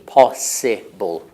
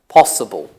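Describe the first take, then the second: First: The second syllable has a clear 'i' vowel. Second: The second syllable has a weak schwa vowel. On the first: This is the older pronunciation. "In the past, people would say I" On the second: This is the present-day pronunciation. "Today, it's a"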